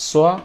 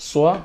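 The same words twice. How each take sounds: The two takes are said the same way.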